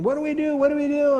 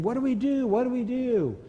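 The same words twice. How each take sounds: First: Much higher and louder frantic screaming; screaming in panic. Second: High, frantic mock cries of the team; panicked yelling. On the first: Retold or imitated. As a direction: scream it like terrified boys. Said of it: "the boys were screaming". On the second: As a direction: voice the boys calling out in a panic, higher. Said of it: "began to yell and scream".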